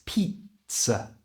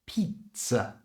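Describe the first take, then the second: Both takes have the same delivery.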